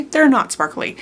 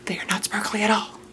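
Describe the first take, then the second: First: Said in the usual way. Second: Softer, quick, near-whispered aside; muttered self-correction. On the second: Real, not acted.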